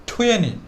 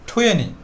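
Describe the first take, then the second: Both takes have the same delivery.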